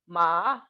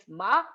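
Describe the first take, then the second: First: The pitch dips low, then rises. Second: The pitch rises from a high level. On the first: "the other is low dipping" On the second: "one is high rising"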